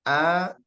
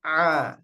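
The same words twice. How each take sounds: First: Ordinary open A for hamzah; hamzah sound. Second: A as ain from the middle throat; squeezed, throaty Arabic ain on A; ain sound. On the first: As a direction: give A a clean glottal start, no squeeze. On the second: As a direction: tighten mid-throat on the A. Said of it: "dengan ain". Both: Shown as a demonstration.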